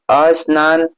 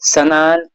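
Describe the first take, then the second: First: A vowel is added before the initial s. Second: The word starts directly with the s cluster. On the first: The speaker calls it wrong. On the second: The speaker calls it right.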